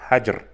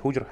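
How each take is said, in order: First: The first vowel is a. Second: The first vowel is u. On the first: The speaker calls it right. "с фатхой над буквой «ха»" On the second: The speaker calls it wrong. "не «худжр»"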